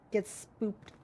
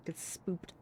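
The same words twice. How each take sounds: First: Said in the usual way. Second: Unvoiced whisper of get spooked. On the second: Shown as a demonstration. Streamer teases chat in a spooky whisper. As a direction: breathe it out like a ghost.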